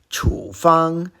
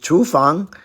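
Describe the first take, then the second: First: The first syllable is in the third tone. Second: The first syllable is in another tone. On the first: It means prescription. "the same character in third tone" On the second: It means kitchen. "not to be confused with"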